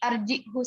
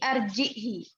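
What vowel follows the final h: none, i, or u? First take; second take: u; i. First: The h is followed by a short u. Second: The h is followed by a short i. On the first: "kemudian tanpa silah berarti arjihu saja" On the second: "tanpa silah tapi haknya kasroh"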